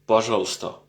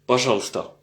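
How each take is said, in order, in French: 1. Certains sons sont omis, ce qui raccourcit le mot. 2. Certains sons sont omis, ce qui raccourcit le mot.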